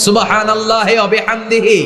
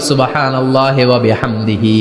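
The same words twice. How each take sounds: First: High-pitched call to repeat; ringing chant for the congregation to echo; leading recitation. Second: Said in the usual way. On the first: Shown as a demonstration. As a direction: lead the crowd through it on a raised note. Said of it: "পড়েন".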